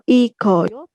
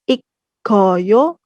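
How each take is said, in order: First: The middle has a single k sound. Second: The middle has a doubled k sound. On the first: "atau ikoyo, bukan" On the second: "bukan ikkoyo"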